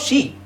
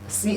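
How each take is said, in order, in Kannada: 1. ಈ ಪದ 'sh' ಶಬ್ದದಿಂದ ಶುರುವಾಗುತ್ತದೆ. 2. ಈ ಪದ 's' ಶಬ್ದದಿಂದ ಶುರುವಾಗುತ್ತದೆ. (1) "No, she" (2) "you see ಅಂತ ಹೇಳ್ತಾ ಇದೀರಾ"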